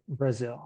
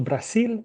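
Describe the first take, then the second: First: Brazil softer, with an English R and Z; pronunciación inglesa; English pronunciation. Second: Brasil higher, with a Spanish tapped R and S; pronunciación española; Spanish pronunciation. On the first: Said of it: "En inglés". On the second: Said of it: "En español". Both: Shown as a demonstration.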